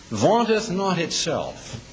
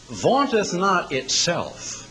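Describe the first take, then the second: First: Vaunteth again, slow and weighty; repeated slow emphasis. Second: Vaunteth drawn out slowly and stressed. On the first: Preacher repeating the scripture line, slow and weighty. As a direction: savour vaunteth slowly. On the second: Preacher quoting scripture to the congregation, slow and stressed. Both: Shown as a demonstration.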